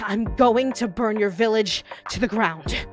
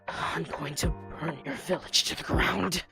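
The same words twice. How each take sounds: First: It is spoken resonantly from the chest voice. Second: It is spoken low, queasy, from the stomach. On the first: "Their chest voice" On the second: "down in your stomach where it's nice and nauseous"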